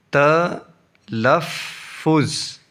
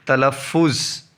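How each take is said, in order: First: "تلفظ" in three slow, separate syllables. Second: Said in the usual way. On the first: Shown as a demonstration. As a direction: sound out "تلفظ" with long gaps. Teacher splits, then joins word.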